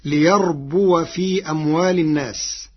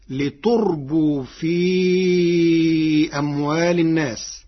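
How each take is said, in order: First: ليربو recited "li-yarbuwa"; ليربو starting "ya", ending in a voiced "wa"; ya with fatha. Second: لتربو recited "li-turbuu", long final u; slow recitation, لتربو with "tu" and a drawn-out ending; damma ta, silent waw. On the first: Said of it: "قرأ ورش كلمة ليربو". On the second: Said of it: "بتاء مضمومة وإسكان الواو، فتصير". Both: Shown as a demonstration.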